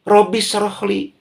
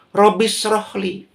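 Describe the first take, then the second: The two takes are said the same way.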